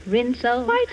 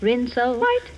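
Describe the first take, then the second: No difference in how they are said.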